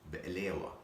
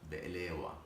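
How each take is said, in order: The two takes are said the same way.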